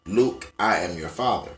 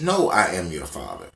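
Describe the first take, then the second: First: Luke stressed and falling, line said low; the remembered version, opening on "Luke" said low. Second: "No" stressed and falling, line said low; the corrected version, opening on "No" said low. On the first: Remembering the famous misquote, opening on "Luke" low. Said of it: "parodying this shit". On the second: Told he's wrong, reciting the real line opening "No" low. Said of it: "y'all tell me that I am wrong". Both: Shown as a demonstration.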